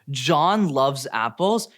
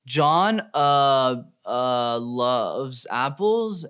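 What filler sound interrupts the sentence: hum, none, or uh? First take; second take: none; uh. First: It is said smoothly with no filler sounds. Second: It is broken up by repeated uh fillers. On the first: "Let's start with the first one" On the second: "with a bunch of filler words"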